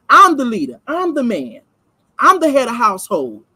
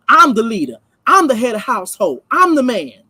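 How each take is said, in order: First: I'm hammed up, punchier and louder; mock boastful husband laying down the law; louder mocking macho man. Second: I'm stressed each time in a lightly voiced boastful husband; a hint of a self-important man at home; mocking macho man. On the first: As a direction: stomp your foot down as the man of the house. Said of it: "As in them putting their foot down". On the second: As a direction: parody a man puffing himself up as the head. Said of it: "When you get into certain conversations".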